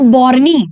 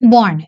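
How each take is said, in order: First: The word ends with an extra vowel sound. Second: The word ends on the n sound. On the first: The speaker calls it wrong. "It's not बॉर्नी" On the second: The speaker calls it right. "It's बॉर्न"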